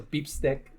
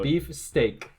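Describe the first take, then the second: First: The second word is said with a short 'i' vowel. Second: The second word is said with an 'ay' vowel.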